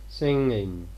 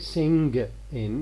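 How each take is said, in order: First: The g after the ng is dropped. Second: A hard g is pronounced after the ng. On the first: The speaker calls it right. "we tend to omit this g. We say singing here" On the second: The speaker calls it wrong. "We don't say sing in, no"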